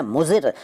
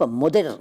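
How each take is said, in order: First: Said in the usual way. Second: मुदिर with a d in the middle. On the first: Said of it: "मुदिर नहीं कहते". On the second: Shown as a demonstration. Teacher showing the rejected form, मुदिर with d for z. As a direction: say मुदिर, d replacing z. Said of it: "नहीं कहते".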